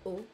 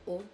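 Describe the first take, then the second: First: The vowel is said with a closed mouth. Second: The vowel is said with a closed mouth.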